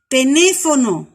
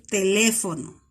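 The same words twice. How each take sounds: First: "teléfono" mispronounced as "tenéfono", N for L; assimilated sound. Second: Said in the usual way. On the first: Shown as a demonstration. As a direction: demonstrate the error loudly, N replacing the L in "teléfono". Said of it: "acá dice teléfono en lugar de decir". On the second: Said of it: "en lugar de decir".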